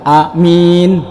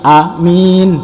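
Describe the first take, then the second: First: The first vowel is short, the second long. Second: The first vowel is short, the second long.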